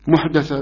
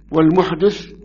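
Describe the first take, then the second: First: "محدثة" with an a after the dal; fatha on the dal. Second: "المحدث" with an i after the dal; kasra on the dal. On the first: Teacher showing the second narration, fatha on the dal of "محدثة". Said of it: "بالفتح". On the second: Teacher showing the first reading of the hadith word, kasra on the dal of "المحدث". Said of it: "بكسر الدال". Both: Shown as a demonstration.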